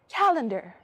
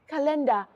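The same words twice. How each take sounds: First: It is said in an American accent. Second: It is said in a non-American accent. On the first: This is the relearned way of speaking. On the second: This is the earlier way of speaking.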